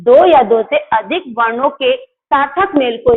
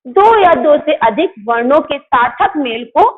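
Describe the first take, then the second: First: Slower, deliberate dictation of the definition; slow repeat. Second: Said in the usual way. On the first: Shown as a demonstration. Teacher repeating the definition to children, slowly. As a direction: spell it out slowly so kids can follow. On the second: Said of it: "दो या दो से अधिक वर्णों के सार्थक मेल को शब्द".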